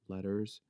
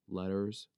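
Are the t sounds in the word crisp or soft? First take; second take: soft; soft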